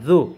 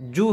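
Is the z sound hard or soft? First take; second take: soft; hard. First: The z sound is soft. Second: The z sound is hard. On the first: The speaker calls it right. "নরম করে" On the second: The speaker calls it wrong. "জু হবে না"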